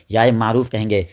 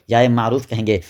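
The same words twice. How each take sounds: The two takes are said the same way.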